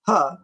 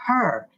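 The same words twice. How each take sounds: First: Imitated Illinois "huh", R dropped; mock-correcting Illinois "huh" without R; Illinois accent. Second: "her" said clearly with its R; teacherly "her", R pronounced; corrective pronunciation. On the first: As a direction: say "huh" for her, Illinois style. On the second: Shown as a demonstration. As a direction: sound the R in "her". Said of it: "The word is".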